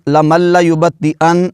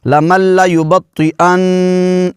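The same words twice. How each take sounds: First: لَيُبَطِّئَنَّ with the final نّ clipped short and no nasal hold; لَمَنْ لَيُبَطِّئَنَّ said quickly, the نّ not held in the nose; wrong reading. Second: لَيُبَطِّئَنَّ slower, with the doubled نّ held firm and nasal; correct nasal hold. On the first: Teacher showing students the wrong way, quick and unheld. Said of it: "ایسے نہیں پڑھا". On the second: Teacher showing students the correct way, nasal ghunna on نّ. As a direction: hold the final نّ of لَيُبَطِّئَنَّ in the nose for a moment. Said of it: "آواز کو ... ناک میں لے جا کر پڑھا ہے". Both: Shown as a demonstration.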